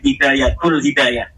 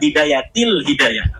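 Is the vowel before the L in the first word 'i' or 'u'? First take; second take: u; i. First: The first word ends with the sound 'ul'. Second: The first word ends with the sound 'il'. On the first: The speaker calls it wrong. "katanya dibacanya Bidayatul Hidayah" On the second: The speaker calls it right. "Harusnya Bidayatil Hidayah"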